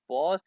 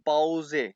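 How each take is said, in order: First: The word ends without a final vowel. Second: The word ends with a pronounced final vowel. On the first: This is the English way of saying it. "English में इसे कहते हैं पॉज" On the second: This is the German way of saying it. "ई को कहते हैं ए।"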